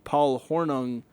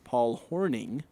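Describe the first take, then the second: First: The surname's last syllable sounds like 'nung'. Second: The surname's last syllable sounds like 'ning'. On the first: The speaker calls it wrong. "because that's how it's spelled" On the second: The speaker calls it right. "correct me on pronunciation, saying it's Paul Horning"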